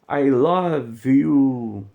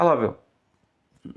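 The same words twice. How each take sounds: First: The phrase is drawn out and said slowly. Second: The phrase is short and said quickly. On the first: The speaker calls it wrong. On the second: The speaker calls it right.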